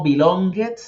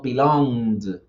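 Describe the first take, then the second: First: "belonged" said "bi-long-get", rising; wrong-way "belonged" in three syllables; wrong extra syllable. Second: "belonged" said "bi-longd", slow and falling; correct D ending. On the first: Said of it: "no decimos". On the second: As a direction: close "belonged" on D with no vowel before it. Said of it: "decimos belonged". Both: Shown as a demonstration.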